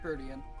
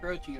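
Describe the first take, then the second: First: The word is not said like 'protein'. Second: The word is said like 'protein'. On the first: The speaker calls it right. "it's called" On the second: The speaker calls it wrong. "It's not called"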